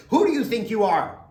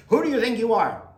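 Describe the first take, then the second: First: Loud, high, frustrated yelling; frustrated shout. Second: Loud, high, frustrated yelling again in the argument; frustrated shout. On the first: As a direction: shout it at the calm man. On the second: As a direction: shout it back at the calm man. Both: Retold or imitated. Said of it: "you say".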